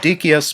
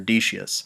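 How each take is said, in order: First: The C is pronounced as a hard k sound. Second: The C is pronounced as a soft s sound. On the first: This is the original Latin way. "The Latin would be Decius" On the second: This is the usual English-speaking way. "that's simply the way English-speaking people pronounce the name"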